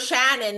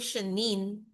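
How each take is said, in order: First: The vowels are said with the standard stress. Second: The vowels are said with a shifted stress. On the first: The speaker calls it right. "My name is Shannon" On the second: The speaker calls it wrong. "iba yung stress nila sa vowel sounds ng name ko"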